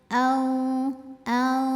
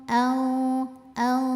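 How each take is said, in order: No difference in how they are said.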